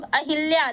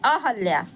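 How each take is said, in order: First: अहिल्या said with an i in the middle, as in casual speech; everyday pronunciation. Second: अहल्या said a-hal-ya, with no i after h; correct pronunciation. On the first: Retold or imitated. Teacher showing students the casual wrong form. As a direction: say अहिल्या the common spoken way. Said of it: "हमारे बोलचाल की भाषा में है अहिल्या". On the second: Shown as a demonstration. Teacher giving students the correct word. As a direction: say अहल्या with a lengthened l and no i. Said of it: "ये main शब्द है अहल्या".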